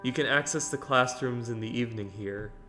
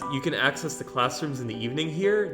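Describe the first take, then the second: First: It is said as a statement, falling. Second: It is said as a question, rising.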